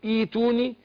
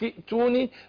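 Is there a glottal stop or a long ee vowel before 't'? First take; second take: long ee; glottal stop. First: It begins with a long ee vowel, no glottal stop. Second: It is joined to the previous word, with a glottal stop. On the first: Reading starts from this word. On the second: The word is read joined to the word before.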